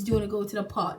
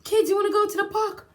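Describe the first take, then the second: First: Said in the usual way. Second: High, loud and quick, bursting with energy; a mum suddenly thrilled to take the kids out; excited invitation. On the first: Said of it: "I'm asking my kids". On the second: Retold or imitated. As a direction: call out to the kids like a fun mum. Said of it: "I'm like".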